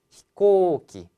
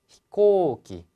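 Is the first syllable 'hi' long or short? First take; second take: short; short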